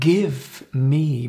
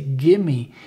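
First: The words 'give me' are said fully and separately. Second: The words 'give me' blend into one short word. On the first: The speaker calls it wrong. "It's not give me" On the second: The speaker calls it right. "but you say gimme"

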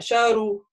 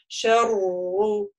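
First: The r is short and not doubled. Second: The r is held excessively long. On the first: "тогда не будет удвоения" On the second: "тогда это уже будет чрезмерно, ну, как бы долгому"

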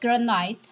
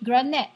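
First: The first syllable sounds like 'gran'. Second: The first syllable sounds like 'gren'. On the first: This is how the speaker's own group says it. "as we call it granite" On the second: This is how some other people say it. "Somebody call it granite, G-R-E-N-I-T-E"

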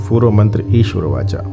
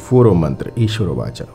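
Both takes have the same delivery.

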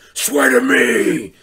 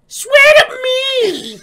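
First: It is said in a deep, gravelly Batman voice. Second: It is said in a shrill, witch-like voice.

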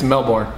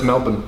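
First: It is said with an American pronunciation. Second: It is said with the local Australian pronunciation.

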